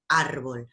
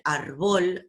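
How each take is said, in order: First: Árbol with a strong ÁR; correct first-syllable stress. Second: Árbol said as ar-BOL; wrong final stress. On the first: Teacher contrasting two stresses, first-syllable stress on árbol. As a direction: punch the start of árbol. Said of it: "a decir árbol". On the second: Teacher contrasting two stresses, final stress on árbol. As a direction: punch the last syllable of árbol. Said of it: "no es lo mismo decir árbol". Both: Shown as a demonstration.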